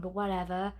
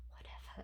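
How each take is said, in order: First: Said in the usual way. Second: Unvoiced whisper. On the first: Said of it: "whatever (whispered repeat)". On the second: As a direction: breathe it as a whispered aside. Whispered repeat of whatever.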